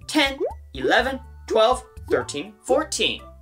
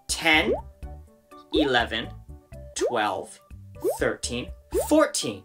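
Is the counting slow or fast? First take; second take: fast; slow. First: The numbers are counted at a faster pace. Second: The numbers are counted at a slower pace.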